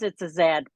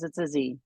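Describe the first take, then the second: First: The letter is said the Canadian way, zed. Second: The letter is said the American way, zee.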